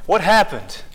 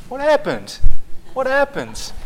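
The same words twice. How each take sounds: First: Mimicking toddler. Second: Put-on much higher, curious little-child voice; imitating a toddler asking again and again; toddler niece. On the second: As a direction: parrot the two-year-old's endless question. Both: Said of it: "She just goes around saying it".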